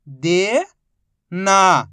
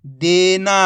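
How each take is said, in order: First: Each syllable held, long pause between; first syllable rising, then a separate second. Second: Whole word in one joined, drawn-out piece; teacher's blended model reading; syllables blended. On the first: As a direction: sound it out for beginning readers. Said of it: "एक ही अक्षर का उच्चारण करके". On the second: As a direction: join the sounds into one loud, clear word. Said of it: "तो मिलके बन जाएगा". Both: Shown as a demonstration.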